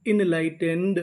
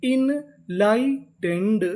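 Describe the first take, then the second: First: Said in the usual way. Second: enlightened stretched very slowly, syllable by syllable; drawn-out demo. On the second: Shown as a demonstration. Teacher slowly sounding out the whole word for students. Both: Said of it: "तो पूरी meaning".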